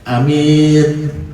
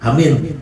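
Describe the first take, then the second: First: The first vowel is short, the second long. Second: Both vowels are short. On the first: It means honest. "Ada minnya panjang, A-nya pendek" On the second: It means safe. "kalau pendek semua"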